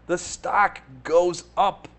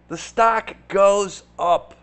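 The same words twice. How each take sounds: First: Said in the usual way. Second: "stock" hit louder, slow and falling; stress on stock. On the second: Shown as a demonstration. Hammering the point home to viewers, stress on "stock". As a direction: lean hard on "stock".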